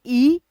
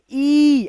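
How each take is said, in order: First: Said in the usual way. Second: ई stretched long and slow; drawn-out vowel. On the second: Shown as a demonstration. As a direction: pull the vowel ई out long on the tongue. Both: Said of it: "ऐसे खींचेंगे".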